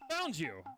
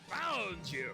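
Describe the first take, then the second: First: It is said in the speaker's ordinary voice. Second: It is said in a put-on villain voice. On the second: "Going all Wesker"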